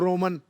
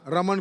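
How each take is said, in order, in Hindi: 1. पहला स्वर गोल 'o' ध्वनि है। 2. पहला स्वर सादा 'a' ध्वनि है।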